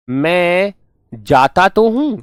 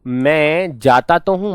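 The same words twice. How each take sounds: First: Slow, with weight on "तो हूं"; emphatic stress. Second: Slow, leaning on तो; emphatic stress. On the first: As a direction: stretch out "मैं जाता तो हूं" slowly and press हूं. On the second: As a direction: say "मैं जाता तो हूं" slowly with the weight on तो. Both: Shown as a demonstration. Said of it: "मतलब जोर दे के ये बोल रहा हूं".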